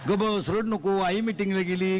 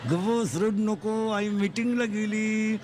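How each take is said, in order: First: Said in the usual way. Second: Put-on slow, drawn-out soothing to a baby; slow down like rocking a crying child; slow lulling hush. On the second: Father slowly hushing his crying baby while mother's away.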